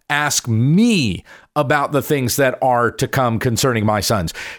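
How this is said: The word 'me' is stressed.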